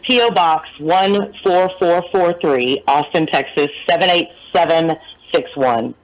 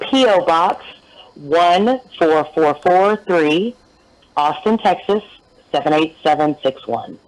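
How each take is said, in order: First: The address is read at normal speed. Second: The address is read slowly.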